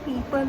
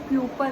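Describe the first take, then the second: First: The first vowel sounds like 'ee'. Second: The first vowel sounds like 'yoo'. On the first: The speaker calls it right. "पीपल होता है" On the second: The speaker calls it wrong. "गलत बोल रहा था"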